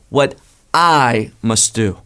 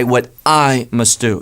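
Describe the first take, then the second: First: What I must do, leaning on I; I drawn out and stressed. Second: I stressed in what I must do; I given weight. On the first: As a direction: hit the word I slowly. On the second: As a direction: lean on the word I. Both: Shown as a demonstration. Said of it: "The emphasis is on I".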